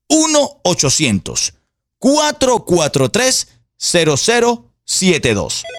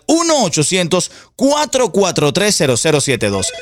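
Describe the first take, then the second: First: The number is said more slowly. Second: The number is said at normal speed.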